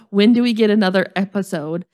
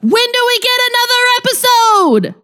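First: It is read in a flat, plain way. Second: It is said with great excitement and energy.

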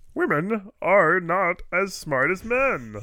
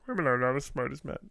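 First: A strong Kermit-like put-on voice is used. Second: A milder, toned-down Kermit-like voice is used.

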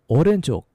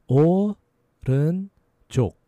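First: The word is said quickly. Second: The word is said slowly.

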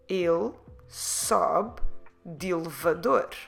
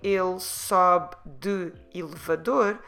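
First: De and elevador run together without a break. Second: De and elevador are said as separate words. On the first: The speaker calls it right. "it sounds more natural if you say" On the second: The speaker calls it wrong. "instead of splitting them, saying ele sobe de elevador"

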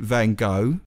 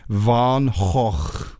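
First: The name is said the American way. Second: The name is said with throat-clearing Dutch sounds. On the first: "Americans pronounce it Van Gogh" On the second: "It's kind of like clearing your throat"

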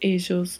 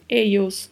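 First: The double L sounds like the s in measure. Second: The double L sounds like English y. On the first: "duplo L com som de J" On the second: "duplo L com som de I"

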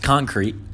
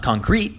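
First: The stress is on the first syllable. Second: The stress is on the second syllable. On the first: The speaker calls it right. "It's concrete. Just say concrete" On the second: The speaker calls it wrong. "It's not concrete"

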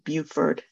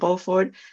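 First: The name is said the Southern US way. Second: The name is said the French way, as spelled. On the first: "that's probably the Southern pronunciation" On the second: "some people do call him Beaufort"

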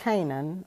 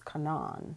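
First: It uses the everyday English pronunciation of Canaan. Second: It uses the Jewish pronunciation of Canaan. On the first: The speaker calls it wrong. "or actually" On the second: The speaker calls it right.

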